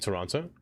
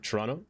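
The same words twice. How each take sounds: First: Toronto is pronounced the speaker's own usual way. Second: Toronto is pronounced the way locals say it.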